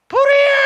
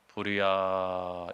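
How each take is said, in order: First: It is shouted loudly in a high voice. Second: It is said quietly and calmly.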